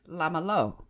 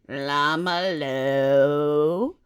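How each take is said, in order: First: It is said with native-like Hebrew pronunciation. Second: It is said with a heavy foreign accent. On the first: This is how the speaker believes it was said. "I said, Lama lo" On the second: This is how a friend heard it. "He says I said it like this"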